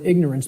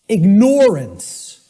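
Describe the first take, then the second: First: It is said the usual way, 'ignore' not heard. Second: It is said so that 'ignore' is clearly heard. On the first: The link to ignoring something is lost. "because of the way it's pronounced" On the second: It means you are ignoring something. "Then people will hear the word ignore in it"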